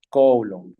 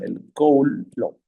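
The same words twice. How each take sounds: First: Said in the usual way. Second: Drawn out slowly, stress on "Coulomb"; slow confirmation. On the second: Shown as a demonstration. Teacher confirms the answer to the class, slowly and clearly. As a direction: stretch "el Coulomb" so the class hears it. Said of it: "Muy bien".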